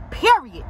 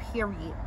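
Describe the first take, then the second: First: Period punched louder and higher; emphatic period. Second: Said in the usual way. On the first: Real, not acted. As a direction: slam down the word Period as a final verdict.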